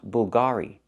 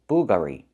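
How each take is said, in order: First: The stress is on the second syllable. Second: The stress is on the first syllable. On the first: The speaker calls it right. "We have to put the stress on the second syllable" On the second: The speaker calls it wrong. "not the first"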